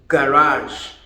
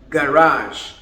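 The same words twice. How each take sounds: First: It is said with an American pronunciation. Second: It is said with an American pronunciation.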